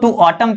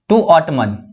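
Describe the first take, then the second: First: The final n of autumn is silent. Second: The final n of autumn is pronounced. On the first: The speaker calls it right. "To ऑटम इसको पढ़ना है" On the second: The speaker calls it wrong. "ऑटमन नहीं पढ़ना है"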